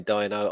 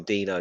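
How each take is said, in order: First: "Dino" said DYE-no; first syllable of "Dino" rhymes with "eye"; DYE-no pronunciation. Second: "Dino" said DEE-no; first syllable of "Dino" rhymes with "see"; DEE-no pronunciation. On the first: Retold or imitated. Co-host echoing the host's way of saying the name, "Dino" as DYE-no. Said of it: "You're going Dino". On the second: Shown as a demonstration. Co-host giving his own guess at the name, "Dino" as DEE-no. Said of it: "I'm erring on Dino".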